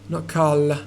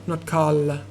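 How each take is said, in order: Both takes have the same delivery.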